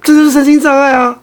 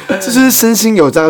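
First: Cracking, strained protest. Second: Strained cracking insistence. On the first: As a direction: voice cracks high on 这. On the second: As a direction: voice breaking high on 是. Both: Real, not acted. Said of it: "原来是你有破音".

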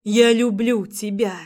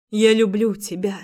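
First: Inner cry. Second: Thought aloud. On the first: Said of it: "кричала моя душа". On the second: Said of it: "думала я". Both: Acted.

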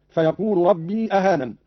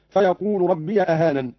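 First: Said in the usual way. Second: "ربي" as "rabbiya" before "أهانن"; don't stretch "ربي", end it in -ya; open yaa. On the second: Shown as a demonstration. ("ربي" بفتح الياء) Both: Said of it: "قرأ قالون بفتح ياء ربي".

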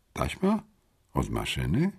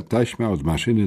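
First: "Taśma? Od maszyny?" softly, each part rising with a pause between; pondering questions. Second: Said in the usual way. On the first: A narrator's reading. Narrator puzzling over a clue, softly rising "Taśma? Od maszyny?". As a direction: wonder softly, lifting "Taśma?" and then "maszyny?".

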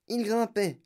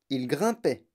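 First: "il grimpait" lifted much higher than usual; climbing pitch. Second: Said in the usual way. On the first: A narrator's reading. Narrator follows the lift climbing ever upward, "il grimpait" pitched high.

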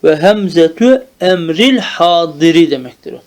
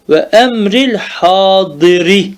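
First: Hemzetü emril hadiri read as a construct, stress on emril; the correct reading of emril hadiri, spelled out clearly. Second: Emril hadiri read in the genitive, with the case ending on hadiri; echoing the student's wrong emril hadiri; genitive misreading. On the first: Shown as a demonstration. Teacher models the correct reading for the student. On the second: Retold or imitated. Teacher repeats the student's genitive misreading to correct it. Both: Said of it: "O mecrur okuyorsun".

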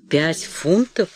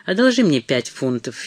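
First: Slow, disbelieving rising question; stunned echo. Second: Said in the usual way. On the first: A narrator's reading. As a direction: repeat the sum in shock, drawn out. Mother echoes shocked sum. (медленно, ошеломлённо) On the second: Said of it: "С мисс Броуди чуть не сделалась истерика".

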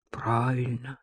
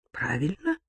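First: Soft, low, level "Правильно"; self-answering tune. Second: Soft "правильно" rising into a question; questioning tune. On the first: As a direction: confirm "Правильно" quietly, without any rise. Masha answers her own question. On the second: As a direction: ask "правильно" quietly, lifting the end. Masha asks, then answers herself. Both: A narrator's reading.

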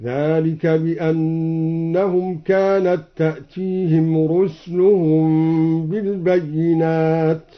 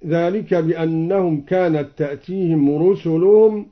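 First: Slow chant, رسلهم said "rusluhum"; vowelless sin. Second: Said in the usual way. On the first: Shown as a demonstration. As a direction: close the s of رسلهم with no vowel after it. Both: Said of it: "أسكن السين هكذا".

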